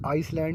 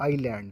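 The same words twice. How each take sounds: First: आइसलैंड with the s sounded; wrong pronunciation. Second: आइलैंड with no s sound; silent s. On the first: Teacher showing students the wrong reading, s sounded. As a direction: say आइसलैंड as spelt, voicing the s before the l. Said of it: "आइसलैंड नहीं पढ़ेंगे". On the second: Teacher showing students the correct reading, s left silent. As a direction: say आइलैंड, gliding from "ai" straight into "land". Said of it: "आइलैंड पढ़ेंगे". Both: Shown as a demonstration.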